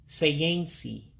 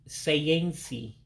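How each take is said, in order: The two takes are said the same way.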